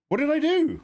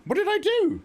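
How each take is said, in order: First: High startled what did I do; shocked outburst. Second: Even higher, squeaked protest; squeaky outrage. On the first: Streamer reacting to chat in shock, high disbelieving cry. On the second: Streamer protesting to chat, squeaky mock outrage. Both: Real, not acted.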